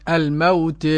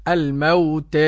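The two takes are said the same way.

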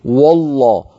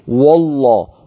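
First: The opening w sound is heavy and emphatic. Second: The opening w sound is heavy and emphatic.

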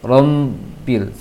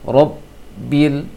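First: The middle consonant sounds like an m. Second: The middle consonant is a clear b sound. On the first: The speaker calls it wrong. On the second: The speaker calls it right.

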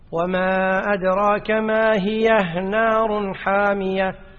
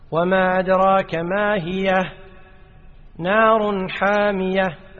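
First: 'Ma hiya' runs straight into 'narun'. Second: There is a stop after 'ma hiya'. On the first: "أثبتناها في الوصل" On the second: "أثبتناها في الوقف"

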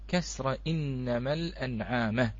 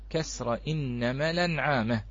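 First: The hamza after the lam is pronounced separately. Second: The hamza's vowel moves onto the preceding lam.

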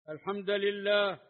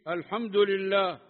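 First: The d of hamd carries a, lam carries i. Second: The d of hamd carries u, lam carries i. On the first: An implied verb governs the word. "بالنصب" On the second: This is the reading of the seven reciters. "على ضم الدال"

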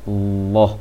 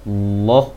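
The two takes are said the same way.

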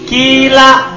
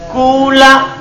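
First: The first vowel is a pure i sound. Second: The first vowel is a pure u sound. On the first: "Boleh ikhlas kasro" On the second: "Boleh ikhlas domma"

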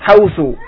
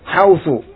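The two takes are said the same way.

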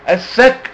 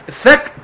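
Both takes have the same delivery.

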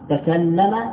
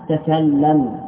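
First: The word ends with a short a vowel. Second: The word ends on a bare consonant. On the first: It is the past tense form. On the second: It is the imperative form.

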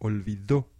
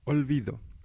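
First: The stress falls on the last syllable. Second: The stress is not on the last syllable. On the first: The verb is in the past tense. "con el acento suena olvidó" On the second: It is a noun for forgetting, or a present-tense verb. "Si no ponemos el acento en la última O, la palabra suena olvido"

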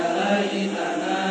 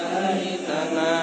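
The two takes are said the same way.

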